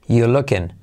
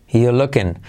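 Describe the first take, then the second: No difference in how they are said.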